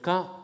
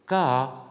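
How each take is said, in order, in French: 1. Le mot est prononcé sur un ton haut. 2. Le mot est prononcé sur un ton modulé. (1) "ton haut" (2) "un ton modulé"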